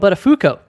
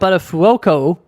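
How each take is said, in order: First: The third syllable sounds like 'foo'. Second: The third syllable sounds like 'fwo'. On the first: The speaker calls it right. "It's actually Daniel Buttafuoco. So an F O O" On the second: The speaker calls it wrong. "we called him Buttafuoco when he first joined, but that is incorrect"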